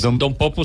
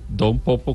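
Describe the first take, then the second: First: The two words run together without a break. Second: The two words are said with a break between. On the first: It is a single name. The speaker calls it right. "Es Don Popo seguido" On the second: It is a respectful title before a name. The speaker calls it wrong. "separado así como Don Popo"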